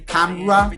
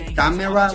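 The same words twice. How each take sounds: First: The middle vowel is dropped, giving two syllables. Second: Every syllable is sounded, including the middle vowel. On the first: The speaker calls it right. "this phoneme is taken off. ... we say camera" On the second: The speaker calls it wrong. "We not we not say camera"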